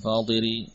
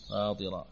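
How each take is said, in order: First: The word ends with an 'i' vowel. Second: The word ends with an 'a' vowel. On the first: The speaker calls it wrong. "Bukan fatiri" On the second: The speaker calls it right.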